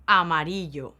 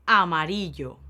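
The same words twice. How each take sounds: The two takes are said the same way.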